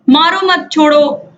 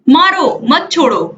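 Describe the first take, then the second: First: There is a pause after the second word. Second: There is a pause after the first word. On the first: Do not hit him; let him go. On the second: Hit him; do not let him go.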